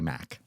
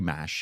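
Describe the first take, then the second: First: The syllable ends with a hard k sound. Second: The syllable ends with a soft sh sound. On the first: The speaker calls it right. "you'd say Mac" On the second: The speaker calls it wrong. "you would never say mash"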